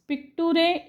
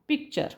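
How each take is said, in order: First: The ending is read as separate 'too-ray' syllables. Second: The ending is pronounced as a single 'cher' sound. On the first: The speaker calls it wrong. "पिक्टुरे is wrong" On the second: The speaker calls it right. "त्याचा उच्चार तुम्हाला करायचा असतो चर"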